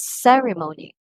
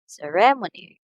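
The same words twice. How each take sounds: First: "ceremony" as CE-re-mo-ny; stress on first syllable. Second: "ceremony" as ce-RE-mo-ny; stress on second syllable. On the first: Teacher gives the correct pronunciation, "ceremony" stressed on first syllable. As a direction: put the weight on the opening syllable of "ceremony". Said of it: "So the first syllable". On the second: Teacher shows what some people say, "ceremony" stressed on second syllable. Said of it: "the second syllable receives the stress". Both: Shown as a demonstration.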